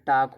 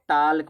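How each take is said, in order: First: No l sound is pronounced before the k. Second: An l sound is pronounced before the k. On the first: The speaker calls it right. "जबकि टाक होता है" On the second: The speaker calls it wrong. "इसको लोग टाल्क पढ़ते हैं"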